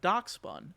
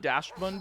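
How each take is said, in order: First: The first syllable sounds like 'dox'. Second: The first syllable sounds like 'dash'. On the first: The speaker calls it right. "now I get it" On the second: The speaker calls it wrong. "I always called it Dashbun because I didn't understand it"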